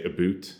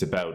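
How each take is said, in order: First: "A boot" for "about", with an oo vowel; teasing Canadian "A boot", long oo in the second syllable; mock Canadian pronunciation. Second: Said in the usual way. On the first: Reviewer mocking the fifty-first state, "A boot" said with oo. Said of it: "in the fifty-first state would say". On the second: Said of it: "it's not a boot".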